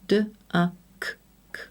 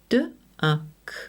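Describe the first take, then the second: First: The final k sound is said twice. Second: The final k sound is said once. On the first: The speaker calls it wrong. "and not" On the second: The speaker calls it right. "It's only necessary to say the sound once"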